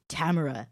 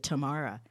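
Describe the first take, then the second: First: Tamara as TAM-uh-ruh, stress up front; first-syllable stress. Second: Tamara as tuh-MAR-uh; second-syllable stress. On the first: Host introducing today's subject, Tamara as TAM-uh-ruh. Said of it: "Or is it Tamara?". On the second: Host unsure of the Russian name, Tamara as tuh-MAR-uh. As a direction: stress the middle of Tamara, open "ah". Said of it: "I don't know how they pronounce it". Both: Shown as a demonstration.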